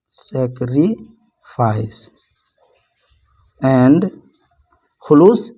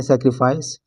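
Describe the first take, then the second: First: Slow dictation. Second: Said in the usual way. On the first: Shown as a demonstration. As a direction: dictate "sacrifice" very slowly, sac-ri, pause, fice. Teacher dictating word while writing.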